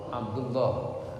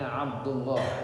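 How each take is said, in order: The two takes are said the same way.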